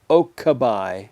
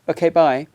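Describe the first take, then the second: First: It is said with a flat pure vowel. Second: It is said quickly, keeping a gliding diphthong. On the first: The speaker calls it wrong. "It's not a pure vowel, ... no" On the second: The speaker calls it right. "If you say it quickly, ... there's still that diphthong"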